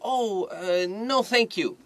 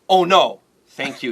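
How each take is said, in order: First: It sounds polite, like a gentle, hesitant refusal. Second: It sounds alarmed, like an exclamation of dismay. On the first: The offer is kindly declined. The speaker calls it right. "This is" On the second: Something bad has happened. The speaker calls it wrong. "Don't say like Oh no。Thank you. That sounds scary"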